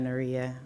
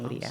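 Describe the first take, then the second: First: The middle consonant sounds like an r. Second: The middle consonant sounds like a d. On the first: This is how many people say the name. The speaker calls it wrong. "a lot of people would say that Nuria" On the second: This is how the owner says her name. The speaker calls it right. "but it's actually Nudia"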